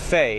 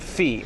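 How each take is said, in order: First: The vowel is a gliding ay sound. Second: The vowel is a long ee sound. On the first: "he says fee kind of like fei" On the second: "instead of fee"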